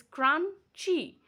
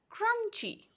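First: Crunchy as two slow beats, crun-chy; split into syllables. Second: Said in the usual way. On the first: Shown as a demonstration. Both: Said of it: "we pronounce this word like this".

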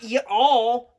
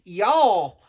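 First: "ya all" split into two stretched syllables; "ya all" as two words. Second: "y'all" run together as one loud syllable; "y'all" as one word. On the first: Southern character showing the mistake, "ya all" in two words. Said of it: "It's not ya all". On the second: Southern character correcting Mister Jeff, "y'all" in one syllable. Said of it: "it's y'all". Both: Shown as a demonstration.

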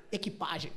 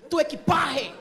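First: Said in the usual way. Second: "equipagem" as Spanish "equipahe", high and louder; pronúncia espanhola. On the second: Retold or imitated. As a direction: say "equipagem" with an aspirated Spanish j: "ekipahe". ("equipagem" com jota espanhol aspirado, "equipárre") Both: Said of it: "Na língua dela, ela falou".

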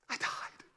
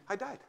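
First: Whispered, no voice at all; soft whispered echo. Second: Said in the usual way. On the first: Shown as a demonstration. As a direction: breathe it out as a secret. Repeated line, whispered.

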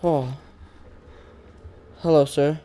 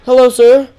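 First: Hushed, lower hello with a rising end; nervous hush. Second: Higher, louder hello with a rising end; bright greeting. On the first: Streamer nervously greeting the giant in the game, hushed. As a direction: greet him softly and warily. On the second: Streamer greeting the giant again, higher and louder. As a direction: call out a cheery hello. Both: Real, not acted.

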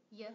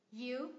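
First: "y" as weak, very short "yuh"; reduced form. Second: "You" in full with a long oo; strong form. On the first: Teacher showing a reduced function word, weak "y". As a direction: cut "y" down to a schwa. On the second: Teacher contrasting forms for learners, strong "You". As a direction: say "You" stressed, full vowel. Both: Shown as a demonstration. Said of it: "phần reduced trong một function word".

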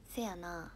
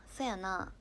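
First: せやな with an opening "se" sound; Kansai "seya na". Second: そやな with an opening "so" sound; Kansai "soya na". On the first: Streamer trying the phrase a viewer requested, せやな with "se". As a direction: say せやな starting on "se", Kansai style. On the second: Streamer showing her own type of the phrase, そやな with "so". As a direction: say そやな starting on "so", Kansai style. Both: Shown as a demonstration. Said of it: "私は「そやな」タイプで".

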